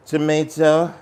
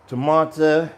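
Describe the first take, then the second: First: "tomato" said as tuh-MAY-toh with a long ay. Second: "tomato" said as tuh-MAH-toh with a broad ah. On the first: Cook showing viewers the other way, tuh-MAY-toh. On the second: Cook showing viewers one way to say tomato, tuh-MAH-toh. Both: Shown as a demonstration. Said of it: "Depends where you are from".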